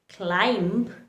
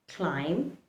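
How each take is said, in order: First: A b sound is heard after the m. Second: No b sound is heard after the m. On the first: The speaker calls it wrong. "instead of pronouncing climb" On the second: The speaker calls it right. "the right way to pronounce these words"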